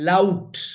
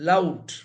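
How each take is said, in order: The two takes are said the same way.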